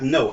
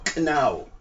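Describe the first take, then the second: First: The word begins with n, no k sound. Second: The word begins with a clear k sound. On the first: The speaker calls it wrong. "not no" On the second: The speaker calls it right. "I pronounce my K"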